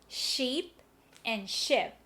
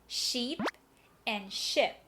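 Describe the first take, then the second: No difference in how they are said.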